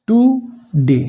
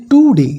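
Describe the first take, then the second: First: "টু ... ডে" split by a clear pause; syllable by syllable. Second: "টু ডে" said loudly as one connected phrase; demonstrating syllables. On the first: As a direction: say "টু", stop, then "ডে". ("টু", থেমে, "ডে" আলাদা করে উচ্চারণ) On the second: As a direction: say "টু ডে" in one go, stressed. ("টু ডে" জোর দিয়ে একটানা উচ্চারণ) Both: Shown as a demonstration. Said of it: "এটা কিন্তু দুবার আসছে জিভের গতিটা".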